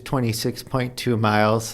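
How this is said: It is said lightly and casually. The distance seems like no big deal. The speaker calls it wrong.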